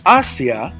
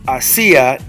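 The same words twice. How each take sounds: First: The stress falls on the first syllable. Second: The stress falls on the second syllable. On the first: It means towards. "like towards, ... I would not have an accent mark" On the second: It is the past verb form. "Hacia does have an accent mark"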